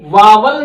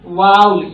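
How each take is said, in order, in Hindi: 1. यह हिंदी मातृभाषा वाले उच्चारण से बोला गया है। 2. यह स्वाभाविक अंग्रेज़ी उच्चारण से बोला गया है। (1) "इसको वावल नहीं बोला जाता" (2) "इसको वाउल बोला जाता है"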